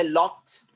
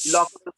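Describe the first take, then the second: First: लॉक्ड said as one syllable with a t ending; लॉक्ड, the correct form. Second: लॉक्ड said high and loud as two syllables; mock the wrong लॉक्ड, pitched up; लॉक्ड as the common wrong form. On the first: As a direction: model लॉक्ड cleanly as lokt. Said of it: "वो है लॉक्ड". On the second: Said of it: "तो लॉक्ड नहीं है". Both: Shown as a demonstration.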